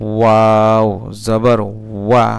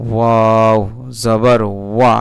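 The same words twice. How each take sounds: First: ওয়া said slowly with lips rounded into a tight circle. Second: Said in the usual way. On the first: Shown as a demonstration. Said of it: "ঠোঁট গুল করে". (ঠোঁট গোল করে ধীরে ওয়া) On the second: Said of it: "ঠোঁট গুল করে বলতে হবে".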